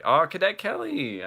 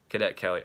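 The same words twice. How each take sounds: First: High, loud burst of remembering; excited, soaring exclamation; delighted recognition. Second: Said in the usual way. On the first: Real, not acted. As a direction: exclaim it as it comes back to you. Suddenly remembers the forgotten movie.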